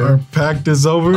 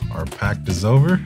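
First: It is said at a louder volume. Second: It is said at a normal, quieter volume.

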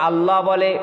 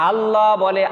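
The two takes are said the same way.

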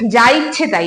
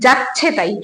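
First: Every word is said separately in full. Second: The first two words merge into one shortened word. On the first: "আমরা কিন্তু অনেকেই বলি যে যা ইচ্ছে তাই" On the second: "আবার অনেকে বলে যাচ্ছে তাই। ... তাড়াতাড়ি বলতে গিয়ে কিন্তু উচ্চারণের দ্রুততার"

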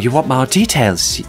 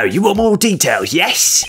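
First: It is said in the speaker's own voice. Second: It is said in Weaselton's voice.

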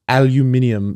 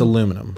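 First: It is said the European way, with five syllables. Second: It is said the American way, with four syllables. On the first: The speaker calls it wrong. "when people are like" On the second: The speaker calls it right. "It's aluminum"

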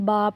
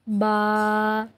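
First: It is said with a sudden jolt. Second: It is said softly without a jolt. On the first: The speaker calls it wrong. "झटका लगेगा" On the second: The speaker calls it right. "नरमी से"

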